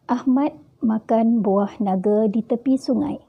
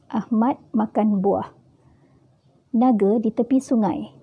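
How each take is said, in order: First: It is said smoothly without a pause inside. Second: It is said with a stop partway through.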